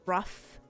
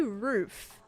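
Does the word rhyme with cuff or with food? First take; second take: cuff; food. First: The vowel is short, as in cuff. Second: The vowel is long, as in food. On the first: This is how some other people say it. "Like they pronounce it the rough. Like R U F F" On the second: This is the speaker's own way of saying it. "I say roof"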